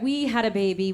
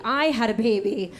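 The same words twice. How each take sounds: First: "we" picked out as the questionable word; stress on WE. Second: "I" picked out, low delivery; stress on I. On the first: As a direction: lightly lean on the word "we". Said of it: "I have to stop saying that". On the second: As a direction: lean firmly on "I" to claim it. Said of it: "We did not have a baby". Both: Shown as a demonstration.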